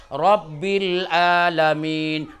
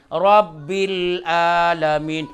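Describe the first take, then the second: First: Rabbil alamin said slowly with a plain Indonesian a in alamin, sounding like alamin meaning pain; the mispronounced Rabbil alamin; wrong, Indonesian-style; wrong pronunciation. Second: Rabbil alamin recited slowly with the Arabic ʿain in alamin; slow, proper Quranic Rabbil alamin; correct recitation. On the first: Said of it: "Tuhan lagi sakit". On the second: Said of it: "Ini beda jauh". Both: Shown as a demonstration.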